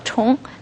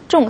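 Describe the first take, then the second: First: It begins with an aspirated retroflex consonant. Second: It begins with an unaspirated retroflex consonant. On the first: It means repeat or again. "ch 건설음이 나죠" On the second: It means heavy or important. "重이라고 건설음, 重, 사성으로 발음나죠?"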